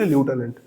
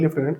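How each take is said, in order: First: The first syllable sounds like 'lew'. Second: The first syllable sounds like 'left'. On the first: This is how the word really goes. "কিন্তু লিউটেন্যান্ট" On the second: This is how people here usually say it. "আমরা বলি লেফটেন্যান্ট"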